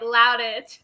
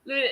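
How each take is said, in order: First: The first syllable rhymes with 'loud'. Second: The first syllable rhymes with 'food'. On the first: The speaker calls it wrong. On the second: The speaker calls it right.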